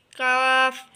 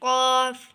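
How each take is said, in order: First: काफ with a light front k and open aa, loud; thin kaf. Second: काफ as a heavy qaaf from far back, loud; thick qaf. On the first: Teacher contrasting two letters, thin kaf. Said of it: "इसको पतला". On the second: Teacher contrasting two letters, thick qaf. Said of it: "ये इसको मोटा पढ़ना है". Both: Shown as a demonstration.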